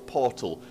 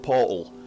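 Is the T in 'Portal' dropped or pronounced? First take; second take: pronounced; dropped. First: The T in the middle is clearly pronounced. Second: The T in the middle is dropped. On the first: The speaker calls it right. "I'm sure it's Portal" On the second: The speaker calls it wrong. "that's just how we pronounce it. I know it's not pronounced like that"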